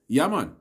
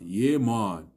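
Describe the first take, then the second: First: The words flow together in a relaxed local accent. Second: The words are said carefully, like standard English. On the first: The speaker calls it right. "You see how that flows? ... That is how you say it, the correct way" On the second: The speaker calls it wrong. "It's not yeah man"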